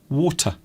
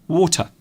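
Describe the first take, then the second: No difference in how they are said.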